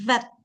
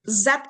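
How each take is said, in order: First: The word begins with a th-like sound. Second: The word begins with a z sound. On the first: The speaker calls it wrong. "bukan that" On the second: The speaker calls it right. "kalau dalam bahasa Indonesia udah pakai Z"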